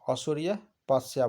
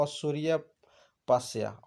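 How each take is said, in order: First: Said in the usual way. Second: असूर्यपस्या spelled out slowly, syllable by syllable; slow careful pronunciation. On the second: Shown as a demonstration. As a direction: draw out असूर्यपस्या slowly so each syllable is clear. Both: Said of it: "ऐसी स्त्री को क्या बोलते हैं".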